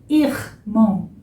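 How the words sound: The R sounds like a French R. "Que é mais parecido com o francês"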